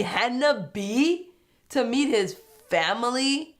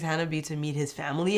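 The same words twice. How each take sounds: First: Slow, high, rising disbelief; stretched-out, questioning incredulity; incredulous confusion. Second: Said in the usual way. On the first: Real, not acted. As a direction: repeat it as a baffled question. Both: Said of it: "I was super confused".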